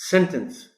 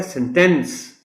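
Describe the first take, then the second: First: sentence as SEN-tence, falling after a high start; stress on first syllable. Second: sentence as sen-TENCE, full vowel at the end; stress on second syllable. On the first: Teacher repeats the noun, sentence stressed on SEN. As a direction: hit SEN in sentence, weaken the ending. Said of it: "primary stress S پر ہے". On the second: Teacher models the verb, sentence stressed on TENCE. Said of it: "primary stress T پر ہے". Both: Shown as a demonstration.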